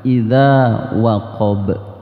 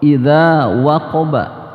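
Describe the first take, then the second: First: It stops on b with a strong bounce. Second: It ends on a full vowel after the b.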